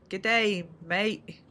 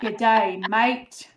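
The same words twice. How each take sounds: First: Slow, careful try at an Australian "good day, mate"; attempted Australian accent. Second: Louder, cheerful Australian "good day, mate"; echoed Australian greeting. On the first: Shown as a demonstration. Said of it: "I'm very bad at accents". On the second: Retold or imitated. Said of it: "That was perfect".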